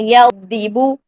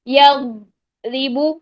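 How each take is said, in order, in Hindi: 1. रुका हुआ स्वर सीधे अगले अक्षर में बह जाता है। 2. एक छोटा ठहराव रुके हुए स्वर के बाद शब्द को बाँट देता है। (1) "आवाज को चलाते चलाते हमने अगला हर्फ पढ़ देना है" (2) "हमने इसमें स्पेस दे दी, या रीबू, गलत"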